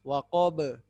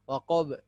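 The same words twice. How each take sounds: First: The final b is released with a bounce. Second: The final b is barely audible. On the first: The speaker calls it right. "Pantulkan saja" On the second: The speaker calls it wrong. "tidak boleh sampai tidak terdengar kol-kolannya"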